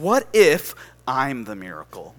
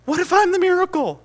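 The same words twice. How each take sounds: First: Said in the usual way. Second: Very high, loud proclamation; impassioned preacher's cry. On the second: Retold or imitated. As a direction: cry it out as the sermon's climax. Line repeated as preaching climax.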